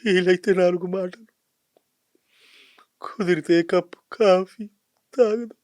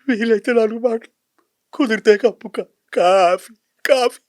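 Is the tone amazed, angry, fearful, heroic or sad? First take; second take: sad; fearful. First: It is said in a sad tone. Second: It is said in a fearful tone.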